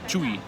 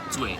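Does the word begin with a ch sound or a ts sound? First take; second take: ch; ts. First: It begins with a ch sound. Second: It begins with a ts sound. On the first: The speaker calls it wrong. "Not sh- not Chui" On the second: The speaker calls it right. "C is a bit like T S"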